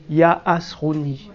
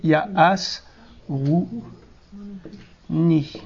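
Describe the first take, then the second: First: Said in the usual way. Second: "Il y a as", "rou", "ni" separated by clear pauses; syllable by syllable. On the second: Shown as a demonstration. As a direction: break it into syllables, pausing before "rou" and before "ni". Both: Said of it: "à chaque, une voyelle, une syllabe".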